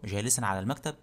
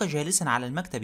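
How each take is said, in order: First: "جالسا على المكتب" low and soft, rising at the end; questioning echo. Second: Said in the usual way. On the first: Acted. Master repeats the answer as question.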